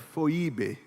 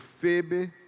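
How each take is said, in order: First: The first vowel is the diphthong 'oi'. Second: The first vowel is a plain 'e'. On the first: This is the original form of the name. "A pronúncia original era Foibe" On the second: This is the later form of the name. "depois virou Febe"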